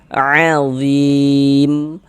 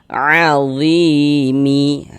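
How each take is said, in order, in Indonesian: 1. Kata ini berakhir dengan m mati. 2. Kata ini berakhir dengan tambahan bunyi i. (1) "kalau kita berhenti di huruf mim kita baca azim" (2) "Jangan dibaca azimi. Jangan begitu"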